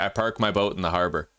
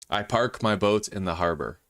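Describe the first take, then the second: First: It is said quickly without careful enunciation. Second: It is said slowly with careful enunciation.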